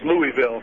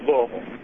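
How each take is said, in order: First: The name is said the standard outsider way. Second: The name is said the way locals say it. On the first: The speaker is not from there. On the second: The speaker is from there.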